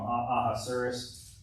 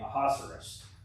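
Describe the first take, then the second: First: The name is said slowly. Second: The name is said at normal speed. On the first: The speaker calls it wrong. "I was saying it too slow" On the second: The speaker calls it right. "Neil pronounced it the other day"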